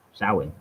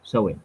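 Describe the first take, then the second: First: Samhain said as "SOW-in"; "sow" pronunciation. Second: Samhain said as "SOH-in"; "so" pronunciation. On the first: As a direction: open Samhain with "sow", rhyming with "cow". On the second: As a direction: open Samhain with "so", as in "go". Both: Shown as a demonstration. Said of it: "whether it's so or sow".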